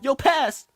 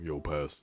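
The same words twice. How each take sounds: First: It is said in a raised, higher voice. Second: It is said in a low, deep voice. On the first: A put-on voice so others can hear. "put on a voice to make it higher" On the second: The speaker's normal voice, which others cannot hear. "then they can't hear me"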